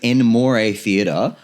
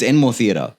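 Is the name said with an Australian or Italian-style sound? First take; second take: Italian; Australian. First: The name is said with an Italian-style flourish. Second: The name is said in a plain Australian way. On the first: The speaker calls it wrong. "you called it Enmore Theatre" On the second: The speaker calls it right. "it's Enmore Theatre, right?"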